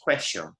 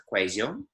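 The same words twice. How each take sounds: First: Argentine accent, the double L in "cuello" turned to sh; Argentine sh sound. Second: Medellín accent, the double L in "cuello" buzzed like a z; Medellín z sound. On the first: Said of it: "much more of a sh noise". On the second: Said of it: "they make a bit of a z kind of noise". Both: Shown as a demonstration.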